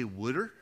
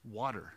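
First: "wooder" with the t softened to a d and an oo vowel; regional wooder. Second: Said in the usual way. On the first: Shown as a demonstration. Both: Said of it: "Your accent communicates something about you".

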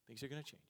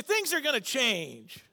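First: Soft promise; gentle reassurance. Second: Slow, loud, high call line; lead a call-and-response. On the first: Real, not acted. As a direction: reassure them softly. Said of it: "I wanna encourage you today". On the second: Shown as a demonstration. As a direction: spell it out slowly for the crowd to repeat. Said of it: "Everybody say".

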